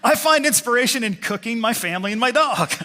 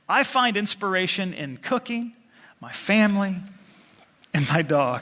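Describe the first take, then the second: First: Cooking runs straight into my family without pause. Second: There is a pause after the word cooking. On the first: The inspiration is cooking one's family and dog. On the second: Cooking, family and dog are three separate inspirations.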